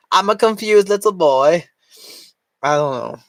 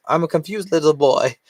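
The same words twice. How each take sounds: First: Put-on high, whiny little boy voice. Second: Said in the usual way. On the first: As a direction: play a confused little kid.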